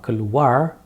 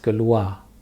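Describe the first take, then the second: First: The final R is clearly sounded. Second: The final R is silent. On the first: The speaker calls it wrong. "Not keluar" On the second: The speaker calls it right. "Just keluar"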